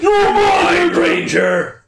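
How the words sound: It is said in a raspy, evil voice.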